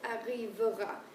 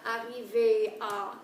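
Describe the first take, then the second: First: The middle syllable is weak, not the infinitive 'ay'. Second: It sounds like the infinitive 'arriver' plus 'a'. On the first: The speaker calls it right. "it's arrivera" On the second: The speaker calls it wrong. "It's not arriver à"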